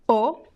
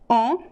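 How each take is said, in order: First: The vowel is closed, with rounded lips. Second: The vowel is nasal, sounding through the nose. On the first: "It could be closed" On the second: "Could be nasal"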